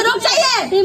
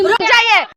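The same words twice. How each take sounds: First: Said in the usual way. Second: Louder, cutting the interrupter off; firm louder stop. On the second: Real, not acted. To the interrupting panelist, a louder firm stop.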